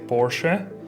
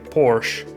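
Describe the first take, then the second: First: The name is pronounced the German way. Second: The name is pronounced the English way. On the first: "German you say Porsche" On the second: "in English some uh, people say Porsche"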